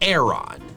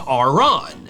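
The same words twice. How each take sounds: First: The first vowel sounds like the one in 'air'. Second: The first vowel sounds like the one in 'armor'. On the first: "The official pronunciation is Aron. ... always makes me think of Aaron" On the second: "I say armor, which is why I say Aron"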